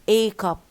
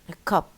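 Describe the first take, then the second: First: The article is said with a full strong vowel. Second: The article is said with a reduced weak vowel. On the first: The speaker calls it wrong. "not a cup" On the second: The speaker calls it right. "this is the regular uh, pronunciation"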